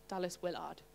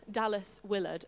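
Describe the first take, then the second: First: Quiet, a bit northern on WILLARD; hushed, tentative northern-sounding aside; slightly northern accent. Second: Said in the usual way. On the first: Shown as a demonstration. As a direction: softly try WILLARD with a full northern "ard" ending. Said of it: "that sounds a bit northern". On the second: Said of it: "I think you say it like that".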